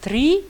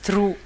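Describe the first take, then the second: First: The r is followed by an i vowel. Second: The r is followed by an ou vowel. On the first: "il y a des gens qui disent tri" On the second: "il y a des gens qui disent trou"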